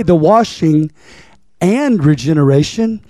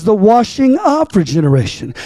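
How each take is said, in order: First: "and" set off after a pause and stressed. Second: "of" picked out with emphasis; stress on "of". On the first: Preacher showing what the text doesn't say, stressing "and". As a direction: lean on the word "and" in "washing and regeneration". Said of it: "he don't just say the washing and regeneration". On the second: Preacher correcting the reading of the verse, stressing "of". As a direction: lean on the word "of" in "washing of regeneration". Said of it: "He says the washing of regeneration". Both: Shown as a demonstration.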